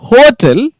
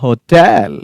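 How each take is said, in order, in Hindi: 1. ज़ोर पहले अक्षर पर है। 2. ज़ोर दूसरे अक्षर पर है। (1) "गलत हो जाएगा" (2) "आपको हो हल्का बोलना है, मतलब लूज छोड़ देना हॉट को, और टी एल पे स्ट्रेस डालना"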